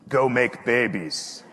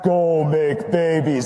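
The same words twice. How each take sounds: First: The voice sounds plain and unprocessed. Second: The voice sounds booming and processed.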